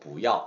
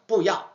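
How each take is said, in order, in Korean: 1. 첫 음절은 음높이가 약간 올라갑니다. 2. 첫 음절은 강하고 변하지 않는 성조를 유지합니다. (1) "정확하게 배운다는 의미에서 그대로 不要" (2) "저번처럼 뿌야 이렇게 해도 알아먹어요"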